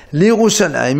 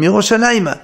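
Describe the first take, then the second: First: Said in the usual way. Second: Yerushalayim said as Yerushalayima, with a final a; he ending added. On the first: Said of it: "au lieu de dire les Mitzrayim". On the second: Shown as a demonstration. Teacher shows the directional he ending, Yerushalayima. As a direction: end Yerushalayim on an extra open a, Yerushalayima. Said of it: "he à la fin".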